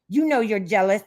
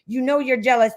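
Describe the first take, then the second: First: It is read in a put-on, odd voice. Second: It is read in a plain, normal voice.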